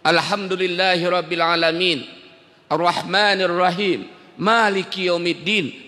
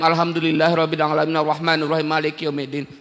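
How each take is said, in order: First: It is recited slowly and calmly. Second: It is recited fast and hurried.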